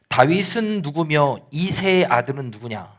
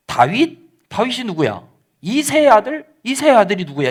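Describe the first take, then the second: First: Said in the usual way. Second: Higher-pitched, incredulous questions, acted out; dismissive retort. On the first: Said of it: "십 절 말씀해 보니까". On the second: Nabal rebuffing David's messengers, mock-incredulous. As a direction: toss each name back as a scornful question. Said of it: "나발이 어떻게 반응을 하냐면".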